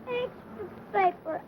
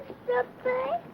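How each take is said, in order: First: It is called out weakly, without pep. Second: It is called out with more pep.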